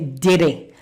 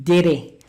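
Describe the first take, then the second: The two takes are said the same way.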